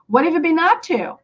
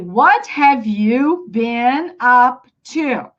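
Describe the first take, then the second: First: The words run together quickly with linked sounds. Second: Each word is said separately and clearly. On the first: "we have something called linking sounds. ... It's kind of fast" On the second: "You can say"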